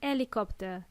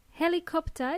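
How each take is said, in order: First: Helicopter without its h, "elicopter"; helicopter, starting straight on the vowel; h dropped. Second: Helicopter with a breathed h; Helicopter, clear h at the start; h pronounced. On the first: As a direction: drop the H from "helicopter". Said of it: "is not pronounced as". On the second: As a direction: sound the H in "Helicopter". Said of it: "we pronounce letter H". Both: Shown as a demonstration.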